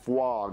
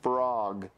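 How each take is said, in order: First: The R is replaced by a W sound. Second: The word has a clear R sound. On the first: The speaker calls it wrong. "You're saying fwog" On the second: The speaker calls it right. "You gotta say frog"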